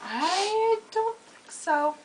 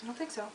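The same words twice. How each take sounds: First: High, very slow, sassy I don't think so; sassy drawn out. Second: Soft, quick I don't think so; quiet dismissal. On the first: Teasing her friend about being smarter, a sassy drawl. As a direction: stretch every word of I don't think so with sass. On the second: Brushing off her friend's boast, a quiet dismissal. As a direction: toss off I don't think so under the breath. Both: Real, not acted.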